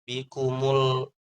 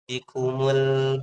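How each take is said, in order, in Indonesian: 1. Bunyi L-nya berat dan tebal. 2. Bunyi L-nya ringan dan tipis. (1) "Biasanya setelah dhammah itu kita bacanya tebal. Bikumul mul mul tebal gitu ya" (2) "Di lamnya tipis"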